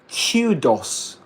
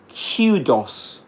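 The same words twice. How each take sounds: First: A y sound follows the k, like queue. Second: The same.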